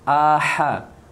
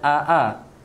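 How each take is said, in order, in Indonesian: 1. Hamzah diikuti oleh h. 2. Kedua suku kata diawali dengan hamzah. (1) "bezakan hamzah dan ha" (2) "jangan aa"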